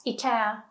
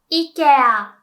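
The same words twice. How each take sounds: First: Said in the usual way. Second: "Ikea" loudly as "i-ke-a"; Japanese pronunciation. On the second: Shown as a demonstration. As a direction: say "Ikea" with Japanese vowels, "ee-keh-ah". English then Japanese brand demo.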